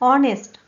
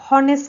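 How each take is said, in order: First: The word starts with a vowel, no h. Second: The word starts with an audible h sound. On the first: The speaker calls it right. "ऑनेस्ट आहे" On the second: The speaker calls it wrong. "हॉनेस्ट नाही"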